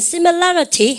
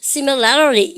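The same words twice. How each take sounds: First: A British accent with a clear t sound. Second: An American accent with a flapped, d-like t.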